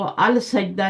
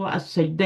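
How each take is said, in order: First: The 'l' of the article is clearly pronounced. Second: The 'l' merges into a doubled 's' sound. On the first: The speaker calls it wrong. "इसको अल सजदा नहीं पढ़ना" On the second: The speaker calls it right. "आपने उसको असजदा ही पढ़ना है"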